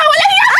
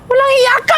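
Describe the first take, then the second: First: High, furious shout. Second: Angry. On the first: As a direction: scream it back at her. Acted quarrel, repeated louder. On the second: Acted quarrel, first outburst. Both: Acted.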